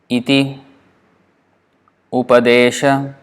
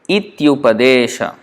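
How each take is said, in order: First: The two words are said separately, ending in i. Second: The words merge into one, with a y sound.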